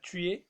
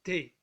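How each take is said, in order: First: The vowel of tu is fully pronounced. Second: The vowel of tu is dropped entirely. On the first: This is the formal way of speaking. "في اللغة الأوفيسيال بنقولها tu es" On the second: This is the casual way of speaking. "في اللغة الدارجة بنقولها t'es"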